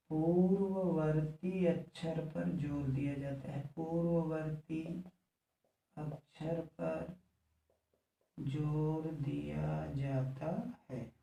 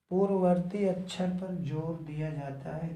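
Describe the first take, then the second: First: Word-by-word writing pace. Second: Said in the usual way. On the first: Real, not acted. Repeats the rule slowly for writing.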